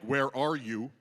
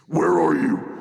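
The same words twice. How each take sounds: First: It is said in a calm, normal tone. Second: It is said in an angry, accusing tone.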